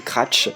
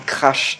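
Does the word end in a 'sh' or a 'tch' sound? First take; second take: tch; sh. First: The word ends with a 'tch' sound. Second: The word ends with a 'sh' sound. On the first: The speaker calls it wrong. "ça m'insupporte les gens qui disent cra un cratch" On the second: The speaker calls it right. "c'est un S et pas un C"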